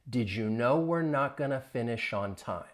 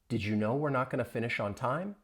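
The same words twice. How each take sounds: First: The sentence is spoken slowly. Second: The sentence is spoken at normal speed. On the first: "I'll say it slowly" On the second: "Say it more at a normal speed"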